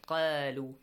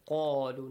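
First: The first sound is light and thin. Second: The first sound is heavy and deep. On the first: The speaker calls it wrong. "not qalu" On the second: The speaker calls it right. "Heavy sound"

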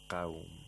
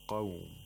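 First: The q sound is light, without emphasis. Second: The q sound is heavy and emphatic. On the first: The speaker calls it wrong. "We don't say qawm" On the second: The speaker calls it right. "So we have to pronounce it with tafkhim. We say qawm"

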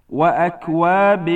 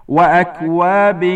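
The two takes are said the same way.

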